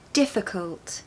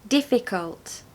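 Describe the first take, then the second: First: The unstressed i is a weak uh sound. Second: The unstressed i is a full clear vowel. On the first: "Here are some schwa sounds for the I vowel" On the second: "Without the schwa sound"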